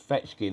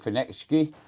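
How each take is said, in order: First: The name is said without an n sound. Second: The name is said with an n sound. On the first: The speaker calls it right. "There is no N in the word" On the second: The speaker calls it wrong. "you're saying Fenechki"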